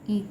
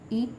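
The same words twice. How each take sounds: First: The vowel is held briefly. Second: The vowel is held longer. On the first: "ई का ई" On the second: "ई का ई"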